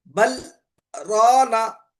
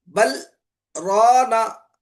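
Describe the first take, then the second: The two takes are said the same way.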